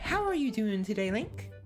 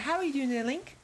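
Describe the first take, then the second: First: It is said at a slow pace. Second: It is said at a fast pace.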